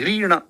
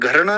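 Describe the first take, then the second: First: The first syllable sounds like 'ghri' with 'ri'. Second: The first syllable sounds like 'ghar' with 're'. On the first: The speaker calls it right. "इसको री बोलेंगे" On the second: The speaker calls it wrong. "घरना नहीं बोल सकते"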